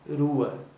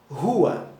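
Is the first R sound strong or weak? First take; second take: weak; strong. First: The first R is a weak tap. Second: The first R is a strong sound. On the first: The speaker calls it wrong. "Não é rua" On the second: The speaker calls it right. "Mas sim rua"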